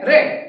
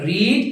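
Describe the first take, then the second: First: The vowel is short, like 'red'. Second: The vowel is long, like 'reed'. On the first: It is the past form. "রিডের past ফর্মের উচ্চারণ হলো রেড" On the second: It is the present form. "রিড রেড রেড"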